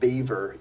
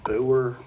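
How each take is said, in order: First: The name is said with two syllables. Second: The name is said as one short syllable. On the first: The speaker calls it right. "but it's Beaver Yorkie" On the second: The speaker calls it wrong. "we thought you pronounced it Boer"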